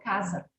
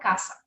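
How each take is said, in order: First: The middle consonant is a voiced Z sound. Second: The middle consonant is a voiceless S sound. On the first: The speaker calls it right. "eu pronuncio como se fosse com Z" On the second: The speaker calls it wrong. "Não falo caça"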